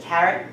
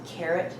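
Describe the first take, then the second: First: The vowel is said with the New York sound. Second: The vowel is said without the New York sound. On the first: This is the original pronunciation from childhood. "instead of" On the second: This is the newer pronunciation picked up later. "for the first time"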